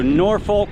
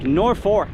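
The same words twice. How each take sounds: First: The second syllable sounds like 'folk', without an r. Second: The second syllable sounds close to 'fork', with an r. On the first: This is how the Virginia city is said. "I live on the East Coast, so Norfolk, Virginia" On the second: This is how the local town is said. "it's more like Norfolk, like the utensil you eat with"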